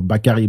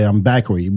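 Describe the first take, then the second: First: "Bakary" said the French way, ba-ka-RY, even stress. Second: Bakary said the English way, BAK-uh-ree. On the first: Son introducing himself in French, French pronunciation. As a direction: say "Bakary" as a French speaker would. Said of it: "when he speaks French". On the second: Son introducing himself in English, English pronunciation. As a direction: son saying "Bakary" like an American. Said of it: "But when he speaks French, he go". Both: Retold or imitated.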